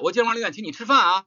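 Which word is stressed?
吃饭. The stress is on 吃饭.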